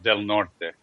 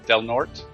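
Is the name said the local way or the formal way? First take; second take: formal; local. First: The name is said the formal, original way. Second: The name is said the everyday local way. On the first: This is how it is officially supposed to sound. "It's supposed to be pronounced Del Norte" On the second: This is how people in the area say it. "nobody here pronounces it that way"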